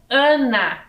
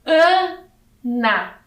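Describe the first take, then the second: First: Said in the usual way. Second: "Ana" split, raised and loud A... then na; syllable by syllable. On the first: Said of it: "aqui eu tenho Ana". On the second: Shown as a demonstration. Teacher reading a little word to children, syllable by syllable. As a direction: read "Ana" slowly with a gap inside. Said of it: "Vamos fazer a leitura dessa palavrinha".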